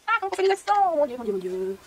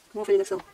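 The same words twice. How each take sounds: First: High thin wail sliding down; hammed-up helpless moan; mock despair. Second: Said in the usual way. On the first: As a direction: whine it theatrically, then sink into lament. Mock despair over keyboard accents.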